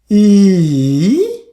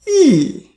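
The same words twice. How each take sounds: First: The pitch dips low then rises again. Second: The pitch falls sharply from high to low. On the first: "Third tone" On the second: "Fourth tone ... from top to bottom"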